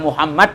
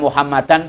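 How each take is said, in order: First: The name ends bare, without '-an'. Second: The name ends with '-an'. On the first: "dibaca Muhammad juga boleh" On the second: "dibaca Muhammadan boleh"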